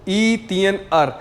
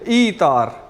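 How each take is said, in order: First: The 'er' is said as its own syllable. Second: The 'er' merges into the syllable before it. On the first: The speaker calls it wrong. "तो ये बन गया ई तियन अर" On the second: The speaker calls it right. "हम इसको प्रोनाउंस करेंगे ई तार"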